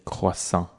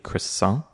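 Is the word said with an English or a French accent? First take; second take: French; English. First: It is said with a French accent. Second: It is said with an English accent. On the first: "if you want to really sound super French" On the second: "I personally would recommend pronouncing it as a croissant"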